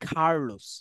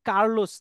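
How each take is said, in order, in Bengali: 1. "k" ধ্বনিতে জোরালো বাতাসের ঝলক আছে। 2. "k" ধ্বনিতে বাতাসের কোনো ঝলক নেই। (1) "এটাকে বলে কি?" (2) "এটাকে বলে যে কার্লোস না"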